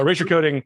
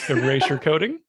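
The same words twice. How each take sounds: First: The phrase is said quickly in running speech. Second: The phrase is said slowly and deliberately.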